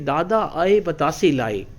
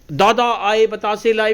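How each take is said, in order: First: The phrase is said in a soft voice. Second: The phrase is said in a loud voice. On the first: "फिर धीरे से कहेंगे" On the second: "कभी तो ऊंची आवाज करके"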